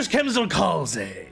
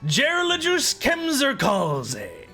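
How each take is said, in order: First: The name is said at a quick pace. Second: The name is said at a slow pace.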